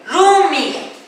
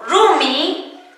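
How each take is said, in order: First: "Rumi" closed by a throaty Q; final Q sounded. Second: Said in the usual way. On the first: Shown as a demonstration. Teacher adds the genitive suffix, "Rumi" with final Q sounded. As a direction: let "Rumi" end on a rasped back-of-throat Q. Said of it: "La Q". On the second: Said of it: "termina en vocal o consonante".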